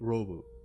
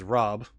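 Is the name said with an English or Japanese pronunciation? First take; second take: Japanese; English. First: The name ends with an added vowel sound. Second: The name ends on a bare consonant. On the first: "because you're pronouncing in Japanese, people would say Robu" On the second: "my name is Rob"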